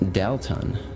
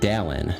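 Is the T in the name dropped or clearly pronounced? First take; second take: pronounced; dropped. First: The T sound in the middle is stressed. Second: The T sound in the middle is dropped. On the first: This is how the ghost says the name. "always emphasizes the T. It's like Dalton" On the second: This is how the boy says his own name. "doesn't enunciate the T. He says Dallin, no T"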